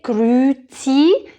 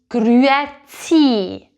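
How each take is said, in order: First: One letter's sound in the word is left out. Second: Every letter's sound in the word is pronounced. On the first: The speaker calls it wrong. "Don't say grüezi" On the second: The speaker calls it right. "make sure to say this letter"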